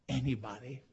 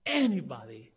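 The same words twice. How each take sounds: First: Said in the usual way. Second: "anybody" punched louder at the start; emphatic stress. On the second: Real, not acted. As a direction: hit the first syllable of "anybody" hard. Repeats the word with force.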